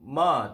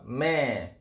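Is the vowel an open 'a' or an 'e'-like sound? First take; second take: open a; e-like. First: The vowel is an open a sound. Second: The vowel sounds like an e. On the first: The speaker calls it wrong. "Ma itu sebutan bagi lahjah Melayu" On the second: The speaker calls it right. "lahjah yang yang sebetulnya adalah me"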